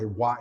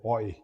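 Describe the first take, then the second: First: The vowel sounds like 'wa'. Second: The vowel sounds like 'oy'. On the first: This is not the Old French pronunciation. The speaker calls it wrong. "you don't say what" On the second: This is the Old French pronunciation. The speaker calls it right. "you say oi"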